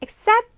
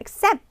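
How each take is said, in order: First: The first vowel is weak and reduced. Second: The first vowel is weak and reduced.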